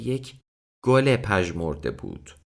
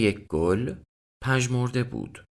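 First: A linking -e vowel joins gol and pajmorde. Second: No linking vowel joins gol and pajmorde. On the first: It was like a withered flower. "ikinci yani tamlamalı anlamı" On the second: It was withered, like a flower. "Bir çiçek gibi solgundu"

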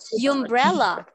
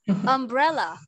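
First: The first vowel sounds like the word 'you'. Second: The first vowel is a short 'uh' sound. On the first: The speaker calls it wrong. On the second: The speaker calls it right.

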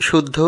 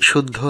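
The two takes are said the same way.

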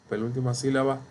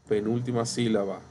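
The two takes are said the same way.

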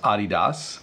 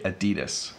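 First: It is said the original, non-American way. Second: It is said the North American way. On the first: The speaker calls it right. "The proper pronunciation, as far as I understand, is Adidas" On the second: The speaker calls it wrong. "in North America, we mispronounce it because we say Adidas"

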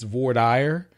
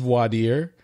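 First: The term is said the Texas way. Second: The term is said the standard way. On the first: The speaker calls it wrong. "in Texas, it's voir dire" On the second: The speaker calls it right. "The actual word is voir dire"

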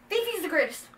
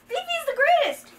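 First: It is said at a quieter volume. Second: It is said at a louder volume.

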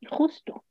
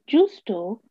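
First: It uses the modern Spanish consonant sound. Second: It uses the older Judeo-Spanish consonant sound. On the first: "y no" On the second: "en judeo español se dice"

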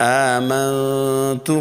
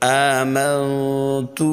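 No difference in how they are said.

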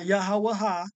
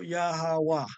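First: The name ends with an extra final 'ha' syllable. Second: The name ends without a final 'ha' syllable. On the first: The speaker calls it wrong. "Not Yahawaha. That's not his name neither" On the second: The speaker calls it right. "it's still Yahawah"

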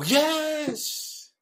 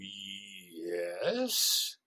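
First: It sounds eager and agreeing. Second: It sounds wary and incredulous.

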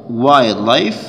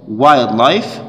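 No difference in how they are said.

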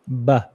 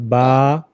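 First: The vowel is kept short. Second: The vowel is drawn out long. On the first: The speaker calls it right. "just one A" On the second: The speaker calls it wrong. "not ba"

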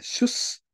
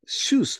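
First: The vowel is kept short. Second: The vowel is held long. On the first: The speaker calls it right. "一応これ長母音の表記はされないね。" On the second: The speaker calls it wrong. "シュースと伸ばすんだったっけ？"

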